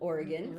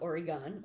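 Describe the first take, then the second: First: It uses the pronunciation used by locals. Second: It uses a common outsider pronunciation. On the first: The speaker calls it right. "For those of you who don't know how to say Oregon" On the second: The speaker calls it wrong. "not Oregon"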